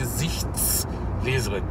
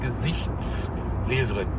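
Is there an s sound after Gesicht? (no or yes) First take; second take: yes; yes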